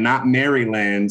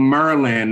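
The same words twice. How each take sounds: First: Said in the usual way. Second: "Maryland" run together like "Merlin"; local Maryland. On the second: Shown as a demonstration. Co-host showing how locals say Maryland, clipped "Merlin" sound. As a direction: say "Maryland" as "Mer-lun", two quick syllables. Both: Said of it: "That's how they say it here".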